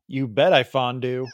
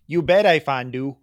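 First: Put-on wrong Peggy Carter accent. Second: Put-on Peggy Carter accent. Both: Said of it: "I did the Peggy Carter accent wrong".

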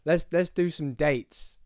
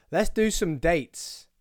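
First: Slow, drawn-out showman announcement; big-time host. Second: Drawn-out, slow host announcement; big-time host. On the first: To listeners, a second slow big-star announcement of dates. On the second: To listeners, announcing show dates like a big star, slow. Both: Pretend. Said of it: "acting like I'm some sort of big time".

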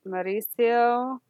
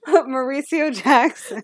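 First: Mauricio drawn out slowly, each syllable lingered on; stretched Mauricio. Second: Mauricio Jackson rolled in a hammed-up Italian accent, slow; mock Italian accent. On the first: Retold or imitated. Recapping the show, mimicking how a character says the name, drawn out. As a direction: say Mauricio long and rolled, savoring it. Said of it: "he didn't say it like that". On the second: Shown as a demonstration. Cohost showing off the name for her friend, mock Italian accent. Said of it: "I really appreciated the accent".

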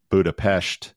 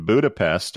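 First: Budapest said "Boo-da-pesht", with a voiced-less "p" start and "sht" ending; Chad's Budapest. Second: Said in the usual way. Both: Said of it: "or as Chad likes to say".

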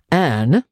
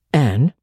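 First: A firmer, sterner call of her name; more severely. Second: Not ungently. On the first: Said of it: "with greater severity". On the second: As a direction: say her name kindly, not harsh. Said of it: "not ungently". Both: Acted.

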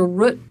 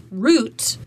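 First: "root" rhyming with foot; short-vowel root. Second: Said in the usual way. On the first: Shown as a demonstration. Coach contrasting pronunciations, "root" with short vowel. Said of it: "root is faster to say". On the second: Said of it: "root versus root".

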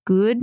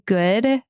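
First: "good" with a drawn-out attempted Aussie vowel; attempted Aussie pronunciation. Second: Said in the usual way. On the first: Shown as a demonstration. Showing how she hears it in her head, "good" attempted Aussie-style. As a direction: try "good" the Australian way, slowly. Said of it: "say it like an Aussie". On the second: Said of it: "when I wanna say good".

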